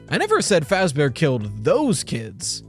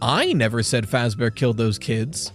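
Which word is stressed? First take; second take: those; I. First: The stress is on the word those. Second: The stress is on the word I.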